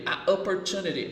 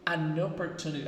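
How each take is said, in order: First: The article is separate, with a break before the vowel. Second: The article links smoothly into the following vowel. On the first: The speaker calls it wrong. "Não é assim" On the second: The speaker calls it right. "Olha como fica mais suave"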